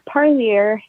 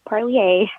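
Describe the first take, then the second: First: The name is said with a plain English sound. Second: The name is said with a French-like sound. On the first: The speaker calls it right. "it's Parlier ... it doesn't have that French um, sound" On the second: The speaker calls it wrong. "not Parlier ... that French um, sound like some have been pronouncing it"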